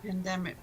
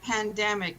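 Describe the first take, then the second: First: The word begins like 'pan'. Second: The word begins like 'panda'. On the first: This is the usual form. The speaker calls it right. "not pandemic" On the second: Someone else said it this way. The speaker calls it wrong. "Ray said pandemic"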